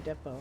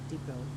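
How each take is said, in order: First: Depot is said with the Canadian pronunciation. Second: Depot is said with the American pronunciation. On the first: "as a Canadian, I would say depot" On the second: "I'm trying to be more American and say things like depot"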